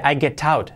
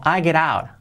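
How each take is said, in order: First: "I get out" with crisp t's in "get" and "out"; hard T's. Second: "I get out" with the t of "get" tapped like a soft r. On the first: Teacher showing what one couldn't say, hard T's. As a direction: pronounce each t in "get out" as a true t. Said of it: "No podría decir". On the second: Teacher showing T as soft R, tapped. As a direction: flow "get out" into "geh-rout". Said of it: "T como R suave". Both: Shown as a demonstration.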